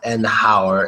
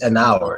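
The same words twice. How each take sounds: First: The H at the start is pronounced. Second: The H at the start is silent. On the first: The speaker calls it wrong. "So it's not an hour" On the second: The speaker calls it right. "it's just an hour. Since the H is silent"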